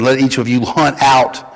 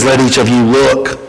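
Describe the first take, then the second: First: Hunt leaned on with a falling tune; stress on hunt. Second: Said in the usual way. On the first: Shown as a demonstration. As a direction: press on the word hunt. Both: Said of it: "is the better translation".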